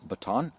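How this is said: It is said with an American pronunciation.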